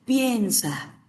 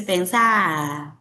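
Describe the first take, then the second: First: Piensa stretched slowly, stressed on PIEN; stress on first syllable. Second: Pensar said as "pensá", final A stressed and drawn out; stress on final syllable. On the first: Teacher mock-correcting an Argentine, piensa slowly stressed on PIEN. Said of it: "se dice piensa". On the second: Teacher mimicking an Argentine to the class, pensar stressed on the final A. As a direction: land long on the last A of pensar, dropping the R. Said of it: "porque es aguda y termina en vocal". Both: Shown as a demonstration.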